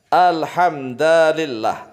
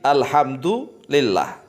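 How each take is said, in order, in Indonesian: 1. Huruf d memakai a dan huruf l memakai i. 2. Huruf d memakai u dan huruf l memakai i. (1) "alhamda bi fathid dali, dengan fathahnya dal" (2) "Ini yang disepakati"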